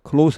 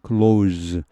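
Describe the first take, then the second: First: The final consonant is a voiceless hissing s. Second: The final consonant is a voiced buzzing z. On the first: It is used as an adjective meaning near. "close 하면은 뭐 이 그 명사나 형용사죠" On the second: It is used as a verb meaning to shut. "close 유성음이 돼 버리죠"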